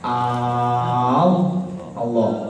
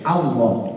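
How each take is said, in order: First: The first vowel is drawn out long. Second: The first vowel is kept short. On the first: The speaker calls it wrong. "kalau dibaca panjang al Allah nggak boleh" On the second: The speaker calls it right. "Harus dibaca pendek Allah"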